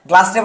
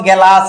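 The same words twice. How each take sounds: First: Said in the usual way. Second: গেলাস in two syllables, "ge-las"; inserted middle vowel. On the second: Shown as a demonstration. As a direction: split the g-l of গেলাস with an e. (গ আর ল-এর মাঝে স্বর দিয়ে "গেলাস") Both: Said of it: "এই যে আস আসলো".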